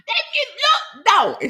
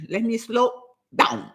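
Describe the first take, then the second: First: Much higher, laughing self-mockery; amused squeal. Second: Said in the usual way. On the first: Real, not acted. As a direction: squeal it playfully after a laugh. Laughing repeat of own self-reminder.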